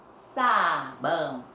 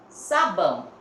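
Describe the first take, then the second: First: "Sabão" stretched very slowly, syllable by syllable; drawn-out syllables. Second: Said in the usual way. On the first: Shown as a demonstration. Teacher sounding out the S for pupils, very slowly. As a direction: hold the first syllable of "Sabão". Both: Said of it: "S tem som de Z".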